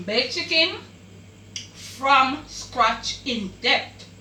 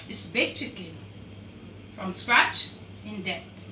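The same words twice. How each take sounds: First: Title announcement. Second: Lower, softer and slow, winding the dish name down; soft closing title. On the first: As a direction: announce the dish name proudly and slowly. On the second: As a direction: sign off the dish name gently. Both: Real, not acted.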